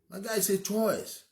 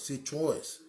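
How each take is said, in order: First: Higher, slow, with choice drawn out; stress on choice. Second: Said in the usual way. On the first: Shown as a demonstration. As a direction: lean hard on the word choice.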